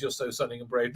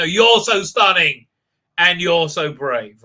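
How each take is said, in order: First: Low, soft offhand praise; understated quote. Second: Mock admiration. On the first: Retold or imitated. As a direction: say it down low, without fuss. First take, before correcting delivery. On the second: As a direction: lay the praise on thick, spaced out. Redoes the praise with mock emphasis.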